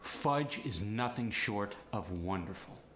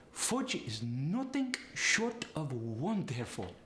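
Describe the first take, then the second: First: Said in the usual way. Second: Slow, higher Polish accent, oo for uh; drawn-out, sing-song Polish accent. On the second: Shown as a demonstration. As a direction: relish it slowly in a Polish accent. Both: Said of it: "the uh sound goes to the oo sound".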